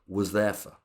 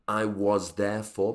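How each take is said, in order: First: The words are squashed together and reduced. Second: Each word is said fully and separately.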